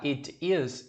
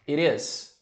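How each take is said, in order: First: The two words are said separately. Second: The t sound links into the next word. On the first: "em vez de falar it is" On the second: "você pega esse som aqui e ligo"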